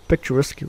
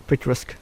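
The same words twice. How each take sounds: The two takes are said the same way.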